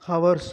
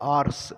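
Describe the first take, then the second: First: The word begins with an audible h sound. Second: The word begins directly with a vowel sound. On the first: The speaker calls it wrong. "ஹவர்ஸ் அப்படின்னு சொல்லக்கூடாது" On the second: The speaker calls it right. "ஹெச் வந்து silent"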